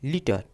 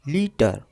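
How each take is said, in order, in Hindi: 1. यह शब्द थोड़ा जल्दी बोला गया है। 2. यह शब्द थोड़ा धीरे बोला गया है। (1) "इसको हम थोड़ा फास्ट बोलते हैं" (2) "इसे हम थोड़ा धीरे से बोलते हैं"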